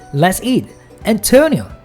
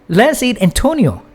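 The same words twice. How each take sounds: First: It is said with a pause before Antonio. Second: It is said without a pause before Antonio.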